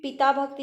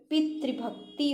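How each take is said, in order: First: पिता भक्ति as two words with a plain ता; पिता भक्ति spoken as the mistake; wrong form. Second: पितृभक्ति with the तृ sound; पितृभक्ति as the right form; correct form. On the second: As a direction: says पितृभक्ति with a clear तृ. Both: Shown as a demonstration. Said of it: "पिता भक्ति नहीं होता".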